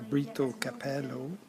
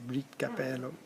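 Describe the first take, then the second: First: The O at the end of Brito is sounded. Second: The O at the end of Brito is dropped.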